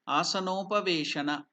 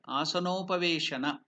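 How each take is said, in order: First: The two words merge into one word. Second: The same.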